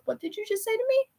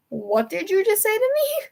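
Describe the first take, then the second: First: High, fast and softer disbelief; shocked squeak. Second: Stunned disbelief. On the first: Fan reacting to dad's news, high stunned squeak. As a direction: shriek it in a hushed, stunned rush. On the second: Fan repeating her question to dad, high and disbelieving. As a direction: stretch it out, still reeling. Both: Retold or imitated.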